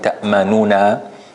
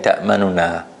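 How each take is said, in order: First: The first n sound is full and complete. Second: The first n sound is quick and reduced. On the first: "instead of saying" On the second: "we are going really, really fast on the first noon. So it's not a full noon"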